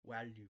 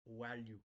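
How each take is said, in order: First: The word starts with a w-like sound. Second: The word starts with a w-like sound.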